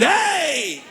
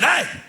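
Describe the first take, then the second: First: It is drawn out and sounds excited. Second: It is short and sounds upset.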